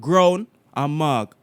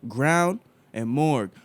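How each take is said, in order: First: It is said in a Jamaican accent. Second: It is said in an American accent. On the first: "I can do it in my Jamaican accent" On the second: "I can do it in my American accent"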